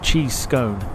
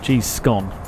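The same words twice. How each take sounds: First: Scone rhymes with cone. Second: Scone rhymes with gone. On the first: The speaker calls it right. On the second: The speaker calls it wrong.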